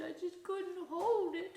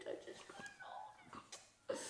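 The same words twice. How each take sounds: First: A lightly voiced whiny dog pleading; a hint of a whimpering dog; guilty dog voice. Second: A high, breathy whisper, much softer; a guilty puppy whispering its excuse; whispered dog plea. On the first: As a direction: plead like a sorry puppy. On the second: Retold or imitated. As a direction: let the plea fade into a tiny whisper. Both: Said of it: "They're like".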